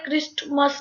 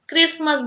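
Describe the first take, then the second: First: A 't' sound is pronounced in the middle. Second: No 't' sound is pronounced in the middle. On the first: The speaker calls it wrong. "क्रिस्टमस नहीं बोलते इसको" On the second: The speaker calls it right. "क्रिसमस बोलते हैं"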